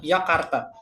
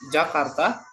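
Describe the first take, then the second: First: The word begins with a Y sound. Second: The word begins with a J sound. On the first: "pakai Y" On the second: "ada yang ngucapinnya pakai J"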